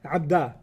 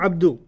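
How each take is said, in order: First: The word ends with an 'a' vowel. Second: The word ends with a 'u' vowel. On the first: The speaker calls it right. "So Ya Abdul Rahman. Abda" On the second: The speaker calls it wrong. "not Abdu"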